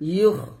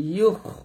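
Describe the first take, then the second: First: It ends in a raspy, throaty kh sound. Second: It ends in a raspy, throaty kh sound.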